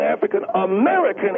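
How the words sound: The stress is on American.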